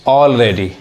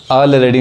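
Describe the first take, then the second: First: Already opened with a long rounded aw, awl-ready; already started on the aw of 'all', the right way; already, teacher's model, awl-ready with a rounded aw; correct pronunciation. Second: Already said with a short flat a, al-ready; already started on a plain a as in 'cat', the way not to say it; already, the common mistake, short a at the start; wrong pronunciation. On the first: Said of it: "क्या कहेंगे". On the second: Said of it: "already नहीं कहेंगे". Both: Shown as a demonstration.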